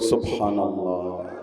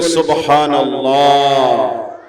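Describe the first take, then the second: First: It is said at normal volume. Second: It is said loudly.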